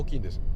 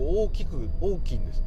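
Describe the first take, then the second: First: It is said with a standard Japanese pitch accent. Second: It is said with a Kansai dialect pitch accent.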